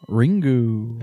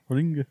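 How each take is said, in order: First: The final u vowel is fully pronounced. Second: The final u vowel is dropped. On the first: The speaker calls it wrong. "It's technically not Ringu" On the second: The speaker calls it right. "you don't really pronounce the U's"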